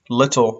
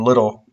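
First: The t is a clear t sound. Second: The t is a quick r-like flap.

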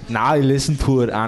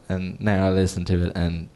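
First: It is said in a put-on foreign accent. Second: It is said in the speaker's normal voice.

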